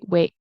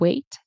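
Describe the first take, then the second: First: The final T is a glottal stop. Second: The final T is released with a pop. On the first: "I kind of say wait. It's like it closes here" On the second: "where I let the T pop at the end"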